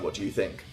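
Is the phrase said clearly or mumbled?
clear. The words are spoken clearly and audibly.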